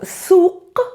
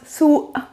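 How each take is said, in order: First: The 'q' sound is clearly pronounced. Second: The 'q' sound is replaced by a catch. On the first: This is the standard Arabic form. "The letter qa in Palestinian dialect is never pronounced as qa" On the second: This is the Palestinian dialect form.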